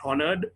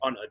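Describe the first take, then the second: First: The word starts with an audible H sound. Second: The word starts with a vowel, no H. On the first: The speaker calls it wrong. "it's not honored" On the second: The speaker calls it right. "the H is silent"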